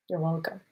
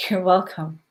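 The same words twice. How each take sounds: First: A soft whispered you're welcome. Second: Said in the usual way. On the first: Real, not acted. Repeats thanks in a whisper.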